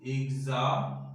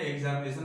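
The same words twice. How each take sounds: First: examination broken into syllables, each held and set apart. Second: Said in the usual way. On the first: Shown as a demonstration. Teacher splitting a long word for pupils, examination syllable by syllable. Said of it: "हर एक शब्द के लिए syllable आपको तोड़ना होगा". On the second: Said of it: "syllable आपको तोड़ना होगा".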